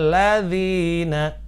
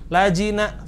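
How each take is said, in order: First: The long vowel is held for two counts. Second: The long vowel is cut short, not lengthened. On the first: The speaker calls it right. "Maka kita membacanya ladzina" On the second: The speaker calls it wrong. "madnya nggak dibaca lajina, salah juga"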